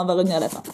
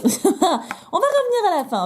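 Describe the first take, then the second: First: Said in the usual way. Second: Laughing. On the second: Real, not acted. Repeats the phrase laughing.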